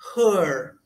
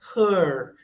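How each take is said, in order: First: The vowel is a central schwa sound. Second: The vowel is a central schwa sound.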